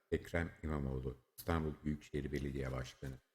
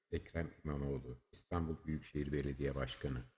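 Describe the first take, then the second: No difference in how they are said.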